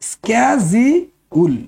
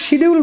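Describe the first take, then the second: First: The word begins with an 'sk' sound. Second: The word begins with an 'sh' sound. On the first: The speaker calls it right. "আসল উচ্চারণ হবে" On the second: The speaker calls it wrong. "ভুল করে শিডিউল বলে মানুষ"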